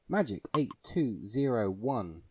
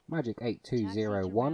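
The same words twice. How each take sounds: First: It is said at a slower pace. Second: It is said at a quicker pace.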